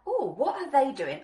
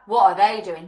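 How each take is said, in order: First: It sounds curious and intrigued. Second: It sounds critical, not curious.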